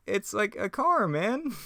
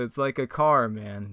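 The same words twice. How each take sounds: First: Slow, very high cartoon slacker voice; Shaggy. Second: Said in the usual way. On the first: Shaggy pointing out a car, high drawn-out impression. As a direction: stretch it out high and squeaky. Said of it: "I really got Shaggy down". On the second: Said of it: "that's Shakespearean right there".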